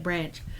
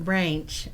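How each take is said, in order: First: It is said with a milder, more general accent. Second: It is said with a broad local mountain accent. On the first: This is how the speaker personally says it. "I call it branch" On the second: This is how the local people say it. "They call it branch"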